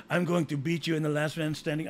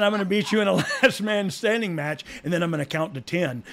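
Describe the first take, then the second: First: Put-on lightly Spanish-accented wrestler quote; accidental Spanish accent. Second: Said in the usual way. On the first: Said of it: "I don't know why I'm s-, Spanish speaking".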